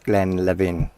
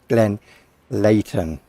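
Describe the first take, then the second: First: It is said in a Scottish Highland way. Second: It is said with a clear T sound. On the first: "for those who are um, Scottish and in the Highlands" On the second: "the correct pronunciation ... You pronounce the T after the H"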